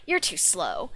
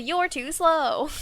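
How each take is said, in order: First: Said in the usual way. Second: "You're too slow" drawn out high and loud; taunt inflection. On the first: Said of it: "like, not a". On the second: Shown as a demonstration. Streamer showing the exact inflection, "You're too slow" as drawn-out taunt. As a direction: stretch each word of "You're too slow" in a raised jeer. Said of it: "but it's literally".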